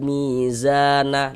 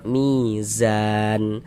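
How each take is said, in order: First: The word continues with a final na syllable. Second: The word stops on a final n sound. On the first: The reading runs on into the next words. "kita wasolkan ya, kita sambung bacanya" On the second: The reading pauses at this word. "kita berwakaf, berhenti di huruf nun ini"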